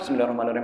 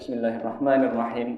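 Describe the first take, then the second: First: It is recited in a rushed, slurred blur. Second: It is recited briskly but each sound stays clear. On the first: This is too hasty to count as proper recitation. The speaker calls it wrong. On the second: This is the minimum acceptable reading speed. The speaker calls it right. "Hadar itu ... Yang minimal begitu pak"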